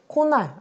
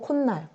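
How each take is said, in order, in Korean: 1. 두 음절 사이에 덧나는 'ㄴ' 소리는 없어요. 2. 두 음절 사이에 'ㄴ' 소리가 덧나요. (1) "코날 아니고" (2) "니은 소리가 덧나죠"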